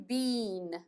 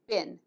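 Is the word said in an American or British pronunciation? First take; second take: British; American. First: It is said with a British pronunciation. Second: It is said with an American pronunciation. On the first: "British pronunciation" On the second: "American pronunciation"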